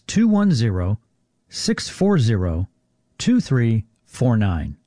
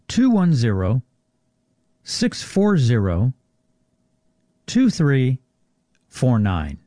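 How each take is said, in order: First: The number is said at normal speed. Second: The number is said more slowly.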